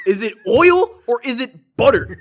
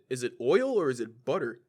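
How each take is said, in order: First: Loud, high, slow and emphatic; hammed-up indignant question; exasperated questioning. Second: Said in the usual way. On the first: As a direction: demand an answer at the end of your patience. Same question repeated in exasperation.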